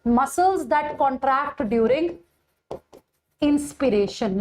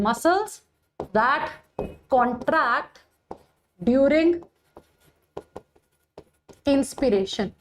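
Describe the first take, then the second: First: Said in the usual way. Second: Each word set apart by long pauses: "Muscles ... that ... contract ... during ... inspiration"; spaced-out dictation with long gaps between "Muscles", "that", "contract", "during" and "inspiration". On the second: Shown as a demonstration. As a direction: dictate it slowly, one word at a time, so students can write it down. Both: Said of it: "which muscles are known as inspiratory muscle?".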